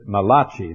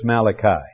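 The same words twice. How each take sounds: First: The name is pronounced with an Italian-sounding ring. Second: The name is pronounced with a plain English sound. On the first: The speaker calls it wrong. "Some people pronounce it Malachi. They call him the Italian prophet" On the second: The speaker calls it right. "but actually it's Malachi"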